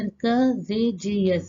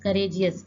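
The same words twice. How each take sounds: First: "courageous" very slowly, beat by beat; teacher counting out the syllables in "courageous"; split into syllables. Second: Said in the usual way. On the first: Shown as a demonstration. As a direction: separate each syllable of "courageous". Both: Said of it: "तीन बार use किया गया".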